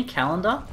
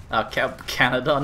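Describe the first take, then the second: First: "Canada" slipped into "calendar", with an L in the middle: kal-en-da. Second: "Canada" said properly as KAN-a-da after a stumble; corrected Canada. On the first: Streamer reading out chat locations, mispronouncing the country as calendar. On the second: Streamer correcting himself after the calendar slip, saying Canada properly. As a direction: restart and land "Canada" cleanly with an N. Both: Real, not acted. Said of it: "not calendar".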